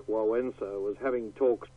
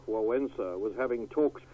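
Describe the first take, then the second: No difference in how they are said.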